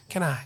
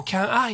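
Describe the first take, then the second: First: "Can I" joined as "ka-nai"; linked pronunciation. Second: "Can I" as separate "kyan ai"; unlinked mispronunciation. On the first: Teacher corrects "Can I" to a linked "kanai". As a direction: let the n of "Can" start "I". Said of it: "canないとなります". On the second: Teacher shows the forbidden way, "Can I" unlinked. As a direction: leave a break before "I" in "Can I". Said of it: "って言っちゃダメです". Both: Shown as a demonstration.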